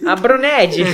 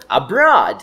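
First: "Abroned" with an extra n and an open e; mock misreading. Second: "Abroad" in two clean syllables, no n; correct model pronunciation. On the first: Teacher plays along over the typo, mispronouncing it as "Abroned". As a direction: garble abroad into "Abronédji". Echoes the joking misreading of abroad. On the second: Shown as a demonstration. Teacher gives listeners the missed word, clear correct "Abroad". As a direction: model "Abroad" firmly for repetition. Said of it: "Agora falou".

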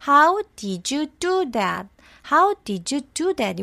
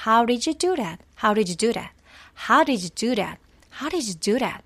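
First: "How did you do that?" every sound slow and separate; textbook pronunciation. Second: "did you" flapped to "riju", "that" to "ret"; real linked pronunciation. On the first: Teacher showing the schoolbook way. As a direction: read it word by word like a textbook. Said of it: "우리 이렇게 배웠죠". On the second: Teacher showing how natives really say it. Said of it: "근데 실제 발음은요". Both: Shown as a demonstration.

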